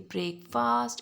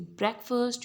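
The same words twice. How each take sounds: First: The first vowel is not an 'eh' sound. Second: The first vowel is an 'eh' sound. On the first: The speaker calls it wrong. "you don't say breakfast. It's wrong" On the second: The speaker calls it right. "You say breakfast"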